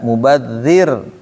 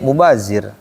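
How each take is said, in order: First: The middle consonant is a soft 'dh' sound. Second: The middle consonant is a buzzing 'z' sound. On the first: "Harusnya mah innal mubadzirin" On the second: "Tapi jadinya mubazir"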